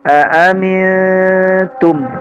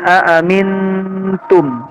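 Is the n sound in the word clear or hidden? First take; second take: hidden; clear. First: The n sound is hidden and nasal. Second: The n sound is pronounced clearly. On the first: The speaker calls it right. "nunnya sudah bukan suara" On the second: The speaker calls it wrong. "masih jelas nunnya"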